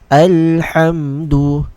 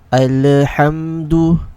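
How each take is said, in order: First: The l is held still without any bounce. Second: The l is released with a small bounce. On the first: The speaker calls it right. "read it with a sukun, like this" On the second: The speaker calls it wrong. "read it with a bounce, like this"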